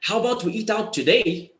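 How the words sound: The voice rises at the end. The speaker is unsure of the answer. "when you rise today, it gives the feeling that you are not sure of the answer"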